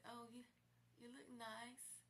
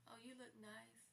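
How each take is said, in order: First: Higher, slow and choked; weepy, slow compliment; tearful. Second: Tearful. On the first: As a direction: say it through tears. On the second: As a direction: let the tears catch it. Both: Real, not acted. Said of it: "I'm in tears saying this".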